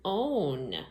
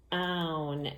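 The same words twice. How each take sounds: First: "own" said with a long O, rhyming with bone. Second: "own" said with an OW sound, rhyming with down. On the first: Teacher showing the other vowel sound, "own" said with long O. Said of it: "it makes the sound O". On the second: Teacher showing a word family, "own" pronounced like the end of down. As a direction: draw out "own" to rhyme with town. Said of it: "They both have own at the end". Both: Shown as a demonstration.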